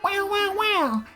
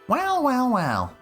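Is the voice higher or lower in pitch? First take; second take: higher; lower. First: It is said in a higher voice. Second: It is said in a lower voice.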